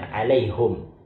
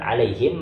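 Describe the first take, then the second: First: The vowel after the h is u. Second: The vowel after the h is i. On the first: "melainkan alaihum" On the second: "bukan alaihim"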